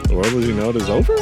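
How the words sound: It ends with a rising question tune.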